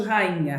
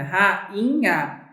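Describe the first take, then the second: First: Said in the usual way. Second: "Rainha" with a break between the first two vowels; split into syllables. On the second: Shown as a demonstration. Teacher showing the separation, "Rainha" in slow separate syllables. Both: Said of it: "como é que é a separação de rainha".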